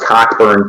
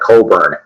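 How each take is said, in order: First: The name is read the way it is spelled. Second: The name is said differently from its spelling. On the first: This is how the written name first seemed to read. The speaker calls it wrong. "the first time I saw it, I thought it was Cockburn too" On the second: This is how the name is actually pronounced. The speaker calls it right. "they call it Cockburn. that's how they pronounce it"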